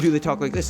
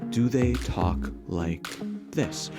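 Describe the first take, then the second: First: It is spoken quickly. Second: It is spoken slowly.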